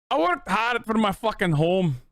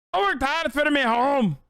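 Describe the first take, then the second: First: Higher, hammed-up Scottish complaint with "worked" stressed; a grumpy Scottish homeowner, badly faked; mock Scottish accent. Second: Much higher, hammed-up Scottish whine with "worked" stressed; squeakier Scottish accent. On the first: Streamer trying a Scottish line for chat in a mock accent. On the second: Streamer retrying the Scottish line in a squeakier mock accent. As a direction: push the fake Scottish voice up even further. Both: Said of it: "I'll do Scottish".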